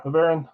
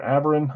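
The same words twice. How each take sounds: First: "Averin" said uh-VEH-rin, stress on the second syllable; first try at the name. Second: "Averin" said AV-er-in, stress on the first syllable; now say "Averin" as AV-er-in, leaning on AV; second try at the name. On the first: Host guessing a viewer's name, uh-VEH-rin. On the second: Host retrying the viewer's name, AV-er-in. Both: Shown as a demonstration. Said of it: "I'm probably saying it wrong".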